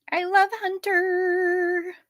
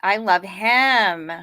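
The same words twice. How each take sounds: First: High, slow doting coo. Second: Said in the usual way. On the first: Real, not acted. Owner gushing over her dog Hunter, high slow coo.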